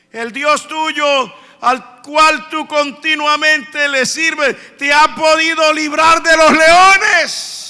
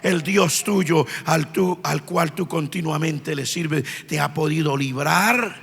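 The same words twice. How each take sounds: First: Mournful plea. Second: Low, soft, slow and grieving; sad, hushed question. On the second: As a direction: ask it quietly, fearing the answer. (el rey pregunta en voz baja y dolida) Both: Retold or imitated. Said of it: "con una voz muy triste".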